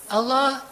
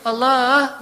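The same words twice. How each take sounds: First: It is said plainly, without melody. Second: It is said affectionately, with a little melody.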